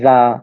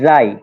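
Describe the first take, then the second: First: It ends on a plain vowel, like ja. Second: It ends with an 'ee' glide, like jai. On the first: "বাংলাদেশে উচ্চারণ সাধারণত করে জা, জা এরকম" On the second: "এর উচ্চারণটা হচ্ছে জাই"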